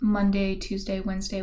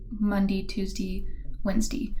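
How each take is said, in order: First: It is said in a standard accent. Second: It is said in an Appalachian accent.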